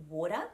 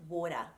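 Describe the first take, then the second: Both takes have the same delivery.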